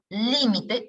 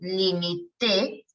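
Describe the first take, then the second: First: The stress is on the first syllable. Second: The stress is on the last syllable. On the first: It is a noun meaning a boundary. "Esdrújula, límite es sustantivo" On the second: It is a verb meaning I limited. "si yo muevo la tilde hacia el final y digo limité"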